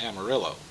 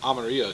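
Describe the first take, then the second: First: It is said in an English-like way. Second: It is said in a Spanish-like way. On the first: "not Amarillo" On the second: "if we have to call everything by its Spanish pronunciation"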